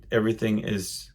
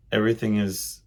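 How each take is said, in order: Both takes have the same delivery.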